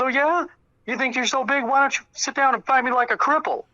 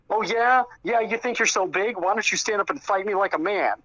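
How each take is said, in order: First: Much higher mimicked taunt, throwing it straight back; retold instant comeback. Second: Higher-pitched mock challenge; retold taunting jab. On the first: Mark turns on Tony without hesitation, retold mocking comeback. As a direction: fire back the challenge in a high mock voice. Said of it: "without hesitation, Mark just turns around". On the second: Tony throws a rude jab at Mark, retold taunt. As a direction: goad him, voice raised in pitch, as if retelling. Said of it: "decided to throw a jab at him".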